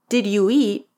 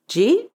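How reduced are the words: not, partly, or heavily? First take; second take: not; heavily. First: Each word is pronounced fully. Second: The words are compressed into one short syllable.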